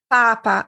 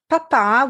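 First: The stress is on the first syllable. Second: The stress is on the last syllable. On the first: It means the pope. "Papa, as we saw, means pope" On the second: It means dad. "Papa with an accent on the last A means dad"

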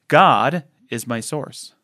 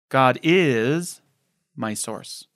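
First: The word "God" carries the main stress. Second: The word "is" carries the main stress.

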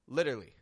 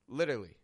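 First: One middle syllable is dropped from the word. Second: The same.

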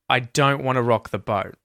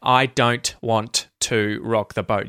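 First: The T sounds are dropped and merged away. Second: Every T sound is clearly and fully pronounced. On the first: The speaker calls it right. "Usually, what you're going to hear is" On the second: The speaker calls it wrong. "you won't hear just hard T's in there"

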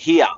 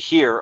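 First: Said the Australian way, vowel like 'ear'. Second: Said the American way, vowel like 'rear'. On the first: "Aussies say it here, like ear" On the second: "the Americans say here, like rear"

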